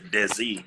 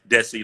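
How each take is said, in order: First: The middle consonant is a z sound. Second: The middle consonant is an s sound. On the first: The speaker calls it wrong. "people use put Z's. They say Desi" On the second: The speaker calls it right. "I say it right, Desi like Jesse"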